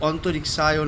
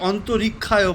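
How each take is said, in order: First: The word is pronounced with every sound distinct. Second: The word is pronounced loosely, sounds not distinct. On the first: The speaker calls it right. "সংস্কৃতে স্পষ্ট উচ্চারণ হচ্ছে" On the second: The speaker calls it wrong. "অনেকে অন্তরিক্ষায় বলে, কিন্তু না"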